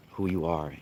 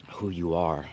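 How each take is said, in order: Both takes have the same delivery.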